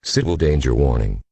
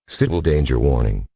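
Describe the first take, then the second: No difference in how they are said.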